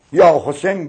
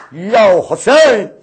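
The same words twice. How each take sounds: First: Said in the usual way. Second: A drawn-out, louder lament call; crying out Husayn. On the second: Acted. Preacher crying out to Husayn before the mourners, drawn-out wail. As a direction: call his name slowly, grieving.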